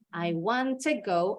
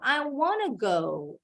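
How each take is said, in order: First: The word 'to' is said fully and separately. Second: The 'to' is merged into 'wanna'.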